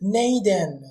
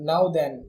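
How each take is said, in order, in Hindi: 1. यह एक मोटे, गैर-मानक लहजे में कहा गया है। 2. यह मानक अंग्रेज़ी उच्चारण में कहा गया है। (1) "इंग्लिश का जो एक्सेंट है वो बहुत ही ज्यादा खराब है" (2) "जो इसकी ओरिजिनल इंग्लिश होगी"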